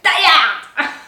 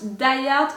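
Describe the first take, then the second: First: It is said in a dramatic, exaggerated way. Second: It is said in a plain, ordinary way. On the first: The speaker calls it right. "You have to pronounce it like Die Hard" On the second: The speaker calls it wrong. "you can't pronounce Die Hard normally"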